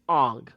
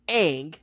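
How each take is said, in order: First: The vowel sounds like the 'o' in long. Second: The vowel sounds like the 'a' in cat. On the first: This is how the film says the name. The speaker calls it wrong. "and you said Aang" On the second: This is how the animated series says the name. The speaker calls it right. "Like it was Aang"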